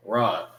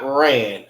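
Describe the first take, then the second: First: "run" said as RAHN, open ah; "run" with the Hebrew ah vowel; corrected pronunciation. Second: "ran" with a stretched English A; "ran" as the mistaken English reading; wrong English vowel. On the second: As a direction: say "ran" louder with the vowel of "man" or "rain". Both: Shown as a demonstration. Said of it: "Not ran".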